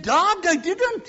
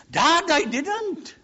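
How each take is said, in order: First: Put-on little boy protesting in a high Welsh lilt; Welsh accent. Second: Put-on high, slow, loud child's protest; little boy without Welsh accent. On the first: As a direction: plead loudly in a Welsh accent. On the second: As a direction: protest to Dad like a small lad. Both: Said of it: "He didn't say it with a Welsh accent".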